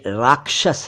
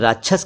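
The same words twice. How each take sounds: First: The क्ष cluster is said in the standard way. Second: The क्ष cluster is said in a nonstandard way. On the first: The speaker calls it right. "ये राक्षस है" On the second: The speaker calls it wrong. "कई लोग राक्षस कह देते हैं"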